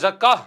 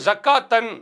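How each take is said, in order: First: The word stops short without the final 'tan'. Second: The word ends with a full 'tan' ending. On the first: "நம்ம ஜக்கா என்று நிறுத்திக் கொள்வது தவறு கிடையாது" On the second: "ஜக்காத்தன் என்று அரபியில வந்தால்"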